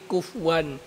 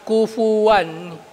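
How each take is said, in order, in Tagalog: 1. Walang binibigkas na patinig pagkatapos ng f. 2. May binibigkas na patinig na 'u' pagkatapos ng f. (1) "hindi kufwan" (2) "Dapat may damma"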